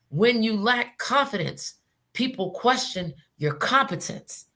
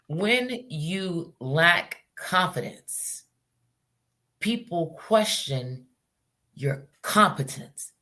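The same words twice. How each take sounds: First: It is said at a normal pace. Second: It is said slowly and deliberately.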